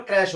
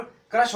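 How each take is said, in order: First: क्रैश with an open "ae", like "kraesh"; क्रैश as "kraesh", not "krush"; open "ae" vowel. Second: क्रश with a short "uh", like "krush"; क्रश as "krush", no "ae" vowel. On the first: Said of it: "इसका उच्चारण क्रैश होता है". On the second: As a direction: say क्रश with the u-sound of "crush". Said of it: "इसका उच्चारण क्रश होता है". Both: Shown as a demonstration.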